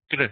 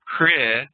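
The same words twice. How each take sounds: First: "kr" as one consonant with one short r-vowel; "kr" with no full vowel after the r; correct vocalic r. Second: "kre" with a full English vowel after the r; "kre", the mistaken version; wrong pronunciation. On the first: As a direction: say "kr" short, as a single syllable. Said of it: "really like one consonant with one vowel". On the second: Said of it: "it's not like a kre". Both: Shown as a demonstration.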